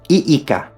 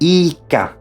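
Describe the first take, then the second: First: A brief catch separates the two vowels. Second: The two vowels merge into one sound. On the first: The speaker calls it right. "The separation of the vowels is obligatory" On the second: The speaker calls it wrong. "it is wrong to pronounce it as ika"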